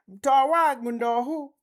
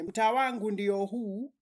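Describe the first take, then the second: First: The word ndio is shortened to ndo. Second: The word ndio is said in full. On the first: This is how local people actually speak. "people shorten their words" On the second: This is the textbook form taught in school. "notice ndio is the correct way"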